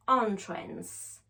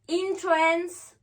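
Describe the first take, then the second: First: Entrance begun with an open "on"; "on" first syllable. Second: Entrance begun with "in", high pitch; high, clear "in" to open entrance; "in" first syllable. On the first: Teacher repeating the noun one more time, "on" in entrance. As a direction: open entrance on "on", falling at the end. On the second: Teacher repeating the verb one more time, "in" in entrance. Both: Shown as a demonstration. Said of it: "One more time".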